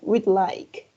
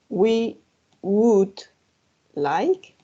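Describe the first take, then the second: First: The word would is shortened onto we. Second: The word would is said in full. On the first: "you can make it shorter saying we'd like" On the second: "En vez de decir we would like"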